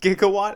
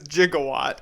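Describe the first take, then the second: First: The word begins with a hard g sound. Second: The word begins with a j sound.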